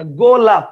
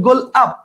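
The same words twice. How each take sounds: First: "গোলাপ" said as one word; joined golap. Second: "গোল আপ" broken into two parts; split into gol ap. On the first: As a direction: run "গোলাপ" together smoothly. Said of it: "আপনি বলবেন গোলাপ". ("গোলাপ" এক টানে বলা) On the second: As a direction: say "গোল আপ" with a break after গোল. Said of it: "গোল আপ না গোলাপ". ("গোল আপ" ভেঙে বলা) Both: Shown as a demonstration.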